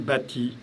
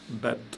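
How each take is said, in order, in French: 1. Une voyelle 'i' se prononce après le t. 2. Aucune voyelle ne se prononce après le t. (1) "j'ai pas dit bâti" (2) "j'ai dit bat"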